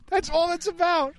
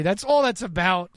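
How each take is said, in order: First: High-pitched, slow mock echo; mocking high repeat. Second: Said in the usual way. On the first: Repeats the same line, mocking.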